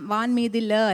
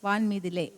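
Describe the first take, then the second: First: The last word ends with an 'a' sound. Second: The last word ends with a long 'e' sound. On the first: The speaker calls it wrong. "വാൻ മീതില അല്ല" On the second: The speaker calls it right. "വാൻ മീതിലേ തന്നെയാണ്"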